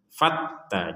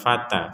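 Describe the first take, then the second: First: The t sound is doubled and pressed. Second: The t sound is short. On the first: The speaker calls it right. "harus ada tekanan" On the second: The speaker calls it wrong. "jadi bukan bukan sekedar fata"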